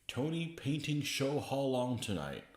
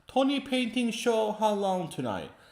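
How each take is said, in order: First: It is read in the speaker's natural accent. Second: It is said in a put-on Asian accent.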